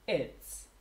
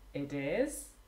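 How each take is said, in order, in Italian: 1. Si pronuncia come un'unica parola abbreviata, contratta. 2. Si pronuncia come due parole intere e separate. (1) "then you have its" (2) "If you have it is"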